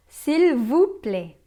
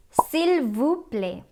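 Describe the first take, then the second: First: "S'il vous plaît" very slow and louder; slow repeat-after-me. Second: "S'il vous plaît" said very slowly, stress on "S'il"; slow French model. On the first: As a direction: lead the class through "S'il vous plaît" slowly. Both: Shown as a demonstration. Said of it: "Again, say it with me".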